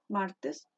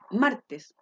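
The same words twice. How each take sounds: First: The word is said with ordinary, natural stress. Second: The first syllable is strongly drawn out and exaggerated. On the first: The speaker calls it right. "No, uno dice" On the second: The speaker calls it wrong. "uno no anda por la vida, como les decía yo, diciendo"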